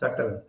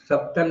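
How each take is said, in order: First: The b sound is left silent before the t. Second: The b sound is pronounced before the t. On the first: The speaker calls it right. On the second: The speaker calls it wrong.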